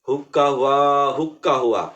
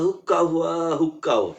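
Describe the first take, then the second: First: The call is said moderately loud. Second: The call is said softly. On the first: "একটু মধ্যম জোরে বলবেন" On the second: "একটু আস্তে শিখালেন"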